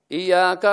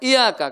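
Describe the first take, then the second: First: The y sound is held long and doubled. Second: The y sound is short and single. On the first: The speaker calls it right. "Iya pakai tasdid" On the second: The speaker calls it wrong. "Jangan iyaka"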